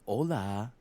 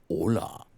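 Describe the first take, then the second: First: It is said in an ordinary voice. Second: It is said in a really deep voice.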